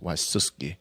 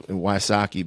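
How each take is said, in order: First: The name is said in the original Polish way. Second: The name is said in an anglicized way. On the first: This is how the name is meant to be said. "it's supposed to be pronounced Wysuski" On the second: This is how the family usually says it. "I go with the Wysocki route"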